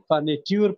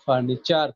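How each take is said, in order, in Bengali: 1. শেষটা 'tyoor' বলা হয়। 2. শেষটা 'cher' বলা হয়। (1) "ওটাকে আমরা ফার্নিটিউর করি না" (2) "ওটাকে আমরা ফার্নিচার করি"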